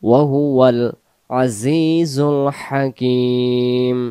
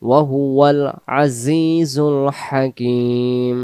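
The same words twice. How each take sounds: The two takes are said the same way.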